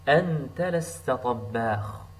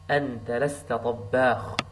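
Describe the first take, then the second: First: Said in the usual way. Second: طباخ with a doubled, pressed ba; stress on ba. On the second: Shown as a demonstration. Teacher stressing the doubled letter ba. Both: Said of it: "Some stress to the letter ba".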